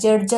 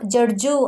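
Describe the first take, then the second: First: The word ends on the final consonant. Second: The word ends with an added 'u' vowel. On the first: The speaker calls it right. "ಇಲ್ಲ ಅವ್ರನ್ನ ಜಡ್ಜ್ ಅಂತಲೇ ಹೇಳೋದು" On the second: The speaker calls it wrong. "ಜಡ್ಜು ಅಂತ ಹೇಳ್ತೀವಾ"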